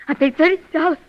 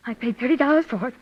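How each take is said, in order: First: Thirty pushed out louder; stress on thirty. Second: Said in the usual way. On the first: Acted. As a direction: lean hard on thirty, louder. Insistent repeat of the price.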